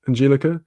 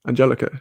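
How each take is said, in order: First: Angelica as an-JEE-li-ka; long EE in the middle of Angelica; trying a pronunciation. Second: Angelica as an-JEL-i-ka; short E in the middle of Angelica; trying a pronunciation. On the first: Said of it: "Angelica, not Angelica". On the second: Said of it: "I think I was getting it right". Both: Shown as a demonstration.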